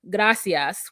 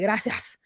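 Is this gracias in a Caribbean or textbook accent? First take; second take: textbook; Caribbean. First: It is said in plain textbook Spanish. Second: It is said in a Caribbean Spanish accent. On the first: "a word that's like gracias, which is what I would hear" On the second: "it sounds like gracias"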